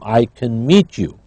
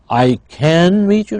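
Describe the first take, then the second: First: The vowel in 'can' is reduced and unstressed. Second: The vowel in 'can' is full and stressed. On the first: The speaker calls it right. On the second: The speaker calls it wrong.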